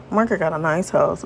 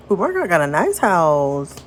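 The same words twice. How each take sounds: First: Said in the usual way. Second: Sing-song admiration; admiring coo. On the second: Acted. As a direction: coo over the nice house. Admiring exclamation, then repeated more plainly.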